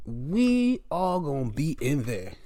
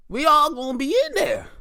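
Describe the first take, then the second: First: Slow, drawn-out declaration; unhurried, measured delivery at usual pitch; slow repeat. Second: High-pitched, punchy cheer; excited high-pitched declaration; high exclamation. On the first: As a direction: stretch each word out deliberately. Repeats line slower. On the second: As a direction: call it out high and eager. Repeats line two ways. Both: Acted.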